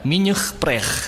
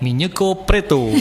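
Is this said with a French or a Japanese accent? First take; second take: French; Japanese. First: It is said with a French accent. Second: It is said with a Japanese accent. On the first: "ada orang sebutkan minyak pret dengan logatnya" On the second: "orang Jepang menyebutkan minyak pret dengan logatnya"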